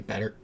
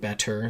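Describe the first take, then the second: First: The middle consonant sound is dropped. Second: The middle consonant is fully pronounced. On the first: "you're dropping sounds" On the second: "Instead of saying better"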